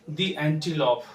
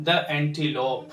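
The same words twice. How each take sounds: First: "the" in "the antelope" as long "thee"; correct pronunciation. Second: "the" in "the antelope" as "thuh"; slow "thuh antelope" for "the antelope"; common mispronunciation. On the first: Teacher correcting learners, "the antelope" with "thee". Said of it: "इसको हमें पढ़ना होगा". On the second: Teacher showing learners' mistake, "the antelope" with "thuh". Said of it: "जो बहुत भारी mistake है". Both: Shown as a demonstration.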